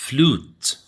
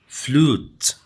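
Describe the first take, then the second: Both takes have the same delivery.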